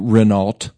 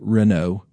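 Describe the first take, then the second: First: The final t sound is pronounced. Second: The final t sound is silent. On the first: The speaker calls it wrong. "Some people used to say Renault" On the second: The speaker calls it right. "It's actually Renault"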